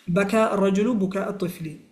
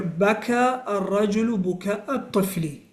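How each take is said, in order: First: Fast, fluent second run of بكى الرجل بكاء الطفل; quick repeat. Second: Said in the usual way. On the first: Shown as a demonstration. Teacher repeating the example for students at natural fast speed. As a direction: rattle it off quickly now. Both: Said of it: "For example, مثال".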